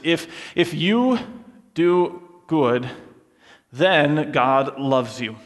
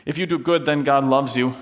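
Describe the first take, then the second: First: Slow, deliberate mock preachy line; slow, emphatic if-then formula; slow moralizing demo. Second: Said in the usual way. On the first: Shown as a demonstration. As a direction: lay it out like a tidy rule. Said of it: "That sounds something like this". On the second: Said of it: "that might sound like a nice thing to say".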